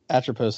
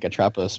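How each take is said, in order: First: The middle does not sound like 'tropical'. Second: The middle sounds like the word 'tropical'. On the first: This is the correct pronunciation. "I'm sure Atropos is correct" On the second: It evokes a beach vacation mood. "Very like tropical"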